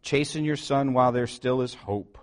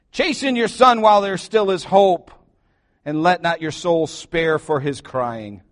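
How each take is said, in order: First: Said in the usual way. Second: "Chasten your son" thrown out louder and higher, "son" punched; emphatic scripture read. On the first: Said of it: "I love what Proverbs nine eighteen says". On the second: Shown as a demonstration. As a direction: hammer the verse home. Verse repeated with force.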